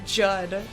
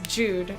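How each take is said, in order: First: The name has a short 'uh' vowel. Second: The name has a long 'oo' vowel. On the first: The speaker calls it wrong. "it's never pronounced that way" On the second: The speaker calls it right. "Her name is Jude"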